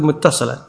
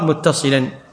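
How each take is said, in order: First: The vowel after the ṣ sound is 'a'. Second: The vowel after the ṣ sound is 'i'. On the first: The speaker calls it wrong. "مكتوب متصلا" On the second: The speaker calls it right. "لكن الصواب متصلا بالكسر"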